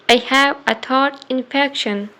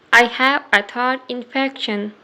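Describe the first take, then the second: No difference in how they are said.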